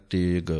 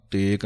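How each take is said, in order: First: ਤੇਗ ending on a voiced g; correct pronunciation. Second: ਤੇਗ ending on a k, like tek; wrong pronunciation. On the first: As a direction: finish ਤੇਗ with g, not k. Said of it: "ਗੱਗੇ ਦੇ ਨਾਲ ਬੋਲਣਾ ਹੈ". (ਤੇਗ ਗੱਗੇ ਨਾਲ) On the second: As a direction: demo the mistake ਤੇਗ said tek. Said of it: "ਕਿਸੇ ਨੇ ਕੱਕਾ ਨਹੀਂ ਲਾਉਣਾ". (ਗਲਤ ਉਚਾਰਨ ਤੇਕ) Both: Shown as a demonstration.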